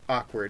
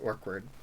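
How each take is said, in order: First: The first syllable sounds like plain 'awk'. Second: The first syllable sounds like 'orc'.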